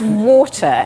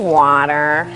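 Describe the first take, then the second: First: Water is said with a British accent. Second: Water is said with an American accent. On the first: The mother corrects the child to her own accent. "And I went" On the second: The child has picked up her father's accent. "she'd go"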